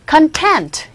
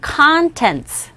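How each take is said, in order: First: The stress is on the second syllable. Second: The stress is on the first syllable. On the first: It is an adjective meaning satisfied. "content 이와 같이 두 번째 강세가 있는 경우에는" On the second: It is a noun meaning the contents. "내용물을 얘기할 때는 contents 첫 번째 강세가 있고"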